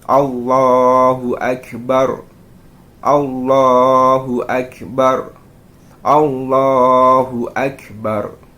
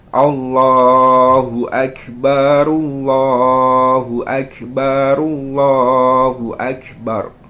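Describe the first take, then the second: First: Each phrase ends in a stop and pause. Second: The phrases run together in one breath. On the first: Each phrase is recited on its own breath. "Ketika satu satu satu maka seperti ini" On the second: All three phrases are recited on one breath. "ketika ketiganya ini dijadiin satu, dijadikan satu, maka seperti ini"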